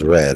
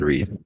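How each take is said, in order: First: The vowel is short, rhyming with 'bed'. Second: The vowel is long, rhyming with 'seed'. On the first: The action happened in the past. The speaker calls it right. "It was read" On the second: The action happens in the present. The speaker calls it wrong. "not read"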